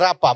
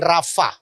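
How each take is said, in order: First: The middle consonant is a p sound. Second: The middle consonant is an f sound. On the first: The speaker calls it right. "Bacanya mesti rapa" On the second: The speaker calls it wrong. "bukan rafa"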